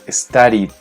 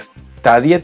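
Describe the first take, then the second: First: The ending is said as a lone 'd' sound. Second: The ending is said as an 'ed' syllable. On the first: The speaker calls it right. "como una D solita" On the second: The speaker calls it wrong. "no sería studied"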